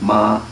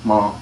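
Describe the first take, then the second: First: The vowel is long and open. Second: The vowel is short and narrow. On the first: The speaker calls it wrong. "Not ma" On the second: The speaker calls it right. "Short and narrow"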